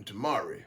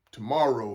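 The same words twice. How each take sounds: First: Tomorrow said as "tomorry", ending in an ee sound; country "tomorrow", last syllable turned to ee; country pronunciation. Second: Said in the usual way. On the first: Shown as a demonstration. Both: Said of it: "for those of y'all who don't know a country dialect".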